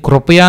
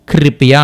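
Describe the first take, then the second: First: కృపయా said "kropaya"; rounded vowel after kr in కృపయా; Telugu kru reading. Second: కృపయా said "kripiya"; i vowel after kr in కృపయా; Hindi kri reading. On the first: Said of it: "కృపయా అని పలకకుండా". (కృపయా "క్రు"తో పలకండి) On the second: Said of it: "క్రీ అని use చేస్తాం". (కృపయా "క్రి"తో పలకండి) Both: Shown as a demonstration.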